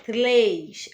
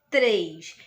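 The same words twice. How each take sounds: First: "três" said as "tlês", with an L after the T; R trocado por L. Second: "três" with a tapped R after the T, lower pitch; R batido. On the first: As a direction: swap the R of "três" for a clear L. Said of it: "Se eu trocar pela letrinha". ("três" pronunciado "tlês", com L) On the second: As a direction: say "três" correctly, tongue tapping the R. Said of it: "ela bate, né, no nosso dente". ("três" com R batido, bem articulado) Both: Shown as a demonstration.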